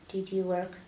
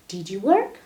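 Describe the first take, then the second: First: It is said flat, without emotion. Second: It is said lively, with emotion. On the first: The speaker calls it wrong. "Don't say" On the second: The speaker calls it right. "Don't be afraid to be emotional"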